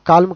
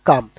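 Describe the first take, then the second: First: The L sound is pronounced in the word. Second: The L sound is left out of the word. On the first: The speaker calls it wrong. "కాల్మ్ కాదు" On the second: The speaker calls it right.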